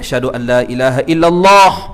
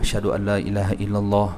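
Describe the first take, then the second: First: The phrase is said loudly, in a raised voice. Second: The phrase is said softly, in a low voice. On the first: It is called out to others. "Baru berderah balik" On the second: It is said first for oneself. "Pelan dulu"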